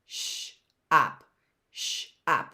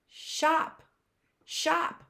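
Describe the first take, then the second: First: "Sh, op" breathed in two parts; teacher segmenting the word; segmented sounds. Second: "Shop" said high and bright as one word; teacher revealing the blended word. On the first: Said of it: "something a little magical". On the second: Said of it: "What is that word?". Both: Shown as a demonstration.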